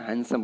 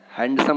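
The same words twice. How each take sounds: First: हैंडसम with silent d, "han-sum"; हैंडसम softer, n straight into s; correct pronunciation. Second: हैंडसम with the d sounded; हैंडसम with every consonant heard; wrong pronunciation. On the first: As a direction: say हैंडसम without its d. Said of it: "डी silent है". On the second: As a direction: say हैंडसम as "hand-sum". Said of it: "नहीं बोल देना है". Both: Shown as a demonstration.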